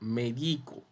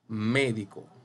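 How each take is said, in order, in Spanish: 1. El acento está en la sílaba del medio. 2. El acento está en la primera sílaba. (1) "sin tilde. Diría medico" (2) "usted puede marcarle la tilde aquí en la E"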